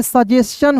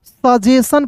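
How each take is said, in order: First: "सजेशन" ending in "s-chan"; correct reading. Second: "सजेशन" slowly, ending in plain "san"; stretched "सजेशन" with no ch; the popular "सजेशन", ch left out; common misreading. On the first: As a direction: add a ch after the sibilant in "सजेशन". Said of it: "सही उच्चारण क्या होता है". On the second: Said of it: "सजेशन भी बहुत लोग पढ़ लेता है". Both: Shown as a demonstration.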